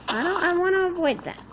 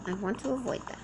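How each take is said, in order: First: Higher, louder, stressing want; emphatic. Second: Quieter, flat mutter to oneself; softer repeat. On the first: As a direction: push it out insistently. Repeats line louder then softer. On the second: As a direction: say it again under your breath. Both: Real, not acted.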